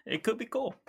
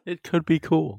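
First: Playful high voice. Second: Playful echo. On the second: Echoes it back. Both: Pretend.

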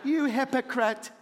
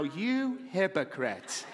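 First: Mock accusation. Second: Slow accusing mutter. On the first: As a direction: throw it at him half-laughing. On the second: Pretend. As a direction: drag it out like a disapproving wife. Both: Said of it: "you're thinking in your seat".

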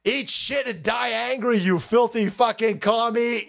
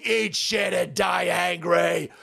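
First: Said in the usual way. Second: Dragged-out, shouted curse; slow shout. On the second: Real, not acted. Vlogger repeats his curse at a commie, shouting. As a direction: spit each word slowly.

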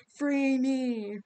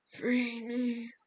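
First: Much louder, echoing Free me; booming echoing command. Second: Put-on distant older woman's voice; possessed echoing voice. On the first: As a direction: bellow it like a stone goddess. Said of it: "It spoke in the same echoing voice". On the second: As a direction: speak as if from a long pipe. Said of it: "it wasn't Rachel's voice. It sounded like an older woman speaking from somewhere far away". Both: A narrator's reading.

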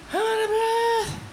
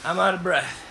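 First: Much higher, strained and winded; squeaky breathless voice. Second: Panting after running up the stairs; winded, catching his breath between words. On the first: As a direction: squeak it out as if gasping. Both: Real, not acted.

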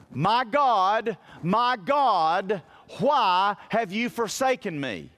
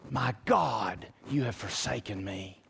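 First: A preacher's raised, anguished cry; retold cry of anguish. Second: Much softer and lower, fading out; barely voiced, the last breath of a dying man; faint dying words. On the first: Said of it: "he shouts out these words". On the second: Retelling Jesus' dying words.

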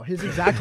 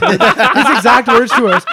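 First: Said in the usual way. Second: Words pushed out through real laughter; laughing. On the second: Real, not acted. Telling friends on the pod, laughing. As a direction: say it while cracking up.

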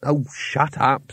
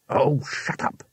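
First: Slow, tired brush-off; slow fed-up sigh of a line; weary. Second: Said in the usual way. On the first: Acted. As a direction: drag it out wearily. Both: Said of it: "said Rincewind wearily".

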